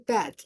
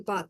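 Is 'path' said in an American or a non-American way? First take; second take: American; non-American. First: The word is said in an American way. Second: The word is said in a non-American way. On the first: "they say path" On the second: "in America they don't say path"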